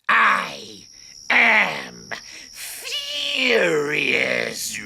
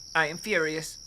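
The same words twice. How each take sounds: First: It sounds intimidating and menacing. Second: It sounds mild, not very angry.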